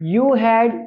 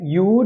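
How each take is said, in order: First: It is said as two full words. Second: It is said as one contracted syllable.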